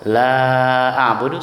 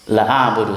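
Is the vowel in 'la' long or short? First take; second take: long; short. First: The vowel in 'la' is long. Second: The vowel in 'la' is short. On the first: I will not worship what you worship. The speaker calls it right. "saya tidak akan menyembah apa yang kamu sembah" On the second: I will surely worship what you worship. The speaker calls it wrong. "saya pasti akan menyembah apa yang kamu sembah"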